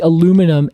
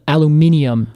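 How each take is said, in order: First: It is said with four syllables, American style. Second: It is said with five syllables, British style.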